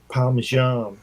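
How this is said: It is said with an American pronunciation. The speaker calls it wrong. "a lot of Americans say Parmesan, and it's not"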